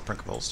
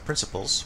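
First: The c is pronounced like a k. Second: The c is pronounced like an s. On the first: It follows the Latin pronunciation. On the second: It follows the usual English pronunciation.

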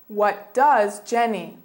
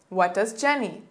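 First: The phrase is said at a slower pace. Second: The phrase is said at a faster pace.

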